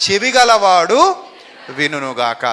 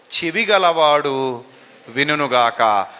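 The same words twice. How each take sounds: First: Slow, loud చెవి గలవాడు, then dropping low on వినునుగాక; emphatic scripture quote. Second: Slow, drawn-out చెవి గలవాడు, sinking low on వినునుగాక; solemn scripture quote. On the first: Preacher repeating the Lord's words, loud then sinking. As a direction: proclaim it, then let it fall. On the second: Preacher quoting the Lord, slow and solemn. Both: Acted. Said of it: "అందుకే ప్రభు అంటారు".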